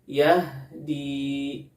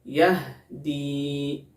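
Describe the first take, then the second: Both takes have the same delivery.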